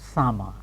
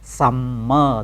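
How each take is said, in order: First: The m sound is short, said once. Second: The m sound is held long, doubled. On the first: The speaker calls it right. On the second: The speaker calls it wrong.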